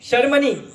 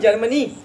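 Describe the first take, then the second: First: The name begins with an sh sound. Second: The name begins with a j sound. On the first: The speaker calls it right. "हमारे देश का नाम शर्मनी है" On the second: The speaker calls it wrong. "जर्मनी बोलते हैं अपन"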